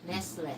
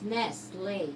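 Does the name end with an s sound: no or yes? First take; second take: yes; no. First: The name ends with an s sound. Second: The name ends without an s sound. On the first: The speaker calls it wrong. "not Nestless" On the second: The speaker calls it right. "It's pronounced Nestle"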